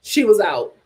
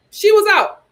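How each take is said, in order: First: Said in the usual way. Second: Higher and louder, punching was; emphatic repeat. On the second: Shown as a demonstration. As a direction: hit "She was out" harder the second time.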